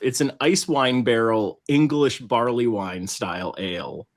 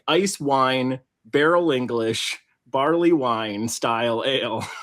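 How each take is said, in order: First: The pitch moves naturally through the phrase. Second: The pitch changes fall in odd places. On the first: The speaker calls it right. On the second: The speaker calls it wrong.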